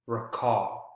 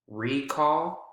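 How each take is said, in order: First: The stress is on the second syllable. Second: The stress is on the first syllable. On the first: It is used as a verb. "Second syllable is the strongest in verbs" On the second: It is used as a noun. "first syllable is the strongest in nouns"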